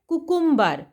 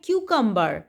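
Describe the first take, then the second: First: The word begins with a plain 'koo' sound. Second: The word begins with a 'kyoo' sound. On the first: The speaker calls it wrong. "नहीं, ये गलत है" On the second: The speaker calls it right. "खीरा को पढ़ते हैं क्यूकम्बर"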